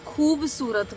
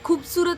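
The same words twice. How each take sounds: First: The first syllable has a long u vowel. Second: The first syllable has a short u vowel. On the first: The speaker calls it right. "खूबसूरत बोलते हैं" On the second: The speaker calls it wrong. "हम खूबसूरत नहीं बोलते"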